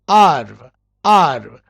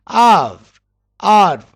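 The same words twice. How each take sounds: The two takes are said the same way.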